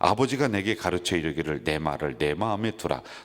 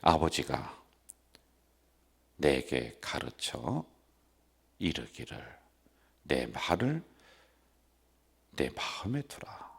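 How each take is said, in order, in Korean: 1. 보통의 빠른 속도로 읽어요. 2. 한 단어씩 아주 천천히 읽어요. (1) "이게 보통 속도란 말이에요" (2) "이렇게 읽으래"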